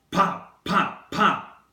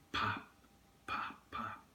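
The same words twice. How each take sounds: First: Loud, high, punched-out pops; imitated gunshots. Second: Hushed, nearly whispered pops; soft firework pops. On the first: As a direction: fire each word like a sudden gunshot. Gunshots imitated as shooting is retold. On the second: Retold or imitated. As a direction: imitate faraway fireworks, fading to a whisper. Distant fireworks imitated in memory.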